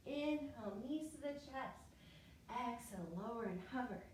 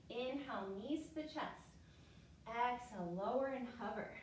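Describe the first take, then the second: No difference in how they are said.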